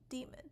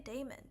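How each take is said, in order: First: The first vowel sounds like 'ee'. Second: The first vowel sounds like 'ay'. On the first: "The D A E is a D, demon" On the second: "oh no, I, I say daemon"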